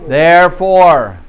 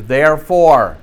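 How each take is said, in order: First: Slow, loud "Therefore", held long; preacher pointing the class to a connecting word, slow and loud; stress on therefore. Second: Said in the usual way. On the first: Shown as a demonstration. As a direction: lean hard on "Therefore". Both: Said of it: "pay very close attention to those connecting words".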